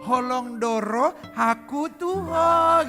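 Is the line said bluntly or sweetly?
sweetly. It is said in a sweet, tender way.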